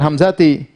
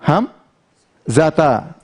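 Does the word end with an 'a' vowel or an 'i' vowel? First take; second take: i vowel; a vowel. First: The word ends with an 'i' vowel. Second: The word ends with an 'a' vowel. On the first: The speaker calls it wrong. "Jangan hamzati" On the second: The speaker calls it right. "Marartu biham zata"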